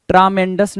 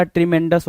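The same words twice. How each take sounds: First: ट्रामेंडस opening on a broad TRAA; wrong pronunciation. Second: ट्रीमेंडस opening on TRI, not TRAA; correct pronunciation. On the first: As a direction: make the first vowel of ट्रामेंडस "aa". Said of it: "ट्रामेंडस नहीं होता". (ट्रामेंडस, "ई" की जगह "आ" बोलकर) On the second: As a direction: make the first vowel of ट्रीमेंडस "i". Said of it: "ट्रीमेंडस होता है". (ट्रीमेंडस, "आ" की जगह "ई" बोलकर) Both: Shown as a demonstration.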